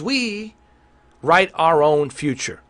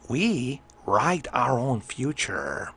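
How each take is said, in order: First: It is said in his ordinary speaking voice. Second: It is said in a put-on Joker-like voice.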